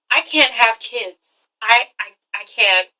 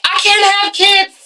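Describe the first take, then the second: First: Slow, halting acted admission; subdued confession. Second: High, drawn-out hammed-up blurt; mock outburst. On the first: Woman confessing to her boyfriend, subdued and halting. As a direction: stammer it out slowly, playing reluctant. Same confession replayed seriously. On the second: Woman confessing to her boyfriend, mock outburst. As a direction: blurt it high and slow, overacting.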